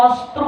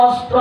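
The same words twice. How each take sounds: The two takes are said the same way.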